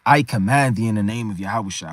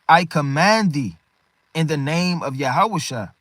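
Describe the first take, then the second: First: Low-pitched archaic recital; old-English recitation. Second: Slow, measured scriptural command; solemn command. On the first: Shown as a demonstration. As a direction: intone it low like an ancient text. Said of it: "can't read this like this is old English". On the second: Acted. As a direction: read it out as a weighty order. Reads Paul's command from scripture.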